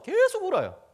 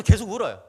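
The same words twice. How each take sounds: First: "계속"의 첫소리를 길게 늘여 강조. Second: Said in the usual way. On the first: A narrator's reading. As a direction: stretch out 계속 to show it never stopped. ("계속"을 길게 끌며 강조)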